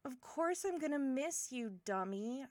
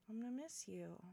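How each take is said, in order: First: Firmer, livelier affectionate retort; fond exasperation. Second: Tender sad confession. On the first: Assuring departing friend of being missed, affectionate exasperation. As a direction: insist on it as if it were obvious. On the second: Telling departing friend they will be missed, soft and sad. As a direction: let it out softly, with regret. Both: Acted.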